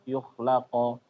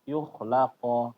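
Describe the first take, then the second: No difference in how they are said.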